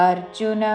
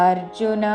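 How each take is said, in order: The two takes are said the same way.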